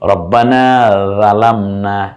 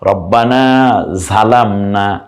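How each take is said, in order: First: Zalamna starts with the ral sound. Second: Zalamna starts with the jha sound. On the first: "রাল দিয়ে বলেছেন" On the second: "ঝা দিয়ে বলেছেন"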